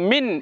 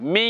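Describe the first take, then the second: First: The n is pronounced clearly with the tongue. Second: The n is hidden and sounds through the nose. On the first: The speaker calls it wrong. "দন্তান্নকে দিলাম মিন স্পষ্ট নয়" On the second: The speaker calls it right. "নাকের মধ্যে আওয়াজ যাবে মিং"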